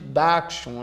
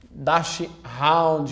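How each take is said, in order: First: The ending has no 'hound' sound. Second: The ending sounds like 'hound'. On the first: The speaker calls it right. "a gente chama de Dachshund" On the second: The speaker calls it wrong. "a gente não chama de Dachshund"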